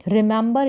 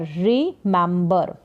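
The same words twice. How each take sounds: First: Said in the usual way. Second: remember drawn out slowly in parts, "ri-mem-bar"; slow syllable breakdown. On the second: Shown as a demonstration. English teacher modelling a new word, slow syllable-by-syllable remember.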